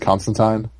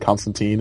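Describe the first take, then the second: First: The last syllable sounds like 'tyne'. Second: The last syllable sounds like 'teen'. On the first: The speaker calls it right. "it's Constantine" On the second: The speaker calls it wrong. "As much as they love to say Constantine in the T V show and the movies"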